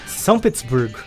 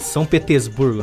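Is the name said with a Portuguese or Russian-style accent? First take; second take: Russian-style; Portuguese. First: It is said with an exaggerated Russian-style pronunciation. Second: It is said with a plain Brazilian Portuguese pronunciation. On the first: The speaker calls it right. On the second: The speaker calls it wrong.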